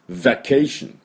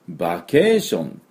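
First: The word begins with a v sound. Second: The word begins with a b sound. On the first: The speaker calls it right. "V ですから、ズ、ズ" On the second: The speaker calls it wrong. "ちょっとね、音はね、これじゃ、伝わらないですね。"

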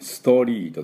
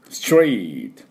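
First: An extra u vowel follows the s sound. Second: The s runs straight into the t sound. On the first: The speaker calls it wrong. "ストって言わないよね。スSU を入れないね。ストリートとかストールでありません。" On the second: The speaker calls it right. "ストリートストールです。"

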